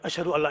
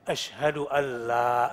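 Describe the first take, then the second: First: The vowel after the l is short. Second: The vowel after the l lasts two beats. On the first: The speaker calls it wrong. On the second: The speaker calls it right. "minimal dua"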